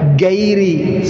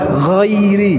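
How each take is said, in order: First: It starts with a plain hard g sound. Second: It starts with a throaty gh sound. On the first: The speaker calls it wrong. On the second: The speaker calls it right. "Yang benar ghairi"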